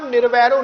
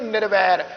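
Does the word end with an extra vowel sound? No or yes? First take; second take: yes; no. First: The word ends with an added final vowel. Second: The word ends on the consonant, no final vowel. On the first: The speaker calls it wrong. "ਹੁਣ ਉੱਥੇ ਆਪਾਂ ਨਿਰਵੈਰੋਂ ਨਹੀਂ ਪੜ੍ਹਿਆ" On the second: The speaker calls it right. "ਉੱਥੇ ਆਪਾਂ ਪੜ੍ਹਿਆ ਜੀ ਨਿਰਵੈਰ"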